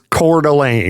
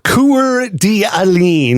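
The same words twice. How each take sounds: First: It uses the local, non-spelling pronunciation. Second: It is pronounced letter by letter as spelled. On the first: "the way it's spelled doesn't make any sense if it's Coeur d'Alene" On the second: "it reads like Coeur d'Alene"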